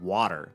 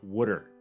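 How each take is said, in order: First: The word is said in a standard accent. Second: The word is said in a Maryland accent. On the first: The speaker calls it right. "instead of water" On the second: The speaker calls it wrong. "everybody said water instead of water"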